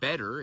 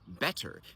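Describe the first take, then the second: First: The middle consonant is a voiced D sound. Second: The middle consonant is an unvoiced T sound. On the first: "a lot of Americans will say better" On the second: "instead of better"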